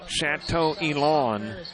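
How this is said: The name gets a broad Southern redneck pronunciation.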